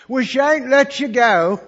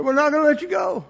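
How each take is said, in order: First: Slow, loud, high insistent vow; loud declaration. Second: High, loud, firm refusal; loud insistent vow. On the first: Lady announcing to the missionaries, loud and slow. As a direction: plead firmly so they stay. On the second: Lady telling the couple, loud and firm. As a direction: insist they won't let go. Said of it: "She said". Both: Retold or imitated.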